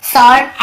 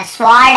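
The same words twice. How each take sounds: First: "स्वॉर्ड" as sawrd, no w sound; silent W reading. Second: "स्वॉर्ड" as swawrd, W sounded; mistaken W reading. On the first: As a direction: drop the W from "स्वॉर्ड". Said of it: "ऐसे पढ़ना है हमें". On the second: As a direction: voice the silent W in "स्वॉर्ड". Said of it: "ऐसे नहीं पढ़ना". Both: Shown as a demonstration.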